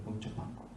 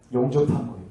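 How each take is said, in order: First: Breathy whispered echo. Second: Said in the usual way. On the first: Real, not acted. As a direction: let it fall to a whisper. Whispered echo of previous line. (속삭이듯 되뇌기)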